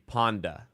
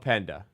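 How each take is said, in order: First: The first vowel is an open 'ah' sound. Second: The first vowel is an 'eh' sound. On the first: The speaker calls it wrong. "if you pronounce P E N D A with a French accent, it'd be Panda" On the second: The speaker calls it right. "he did say Penda. My bad"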